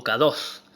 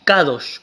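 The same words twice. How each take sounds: First: Kados said with a plain s at the end, ka-DOS; alternate pronunciation kados. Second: Kadosh said with a final sh sound, ka-DOSH; Hebrew pronunciation kadosh. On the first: Teacher giving the other way to say it, kados with s. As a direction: variant kados, final s instead of sh. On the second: Teacher reading the Hebrew word for holy, clear kadosh. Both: Shown as a demonstration. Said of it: "la palabra santo es la palabra kadosh o kados".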